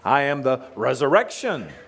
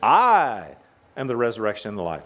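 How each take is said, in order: First: The stress is on "resurrection". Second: The stress is on "I".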